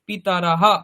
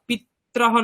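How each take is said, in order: First: A full vowel sounds between the t and r. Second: The t and r run together without a vowel. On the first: The speaker calls it right. "ওটা পুরোটা উচ্চারণ করতে হবে" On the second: The speaker calls it wrong. "পিত্রাহ নয়"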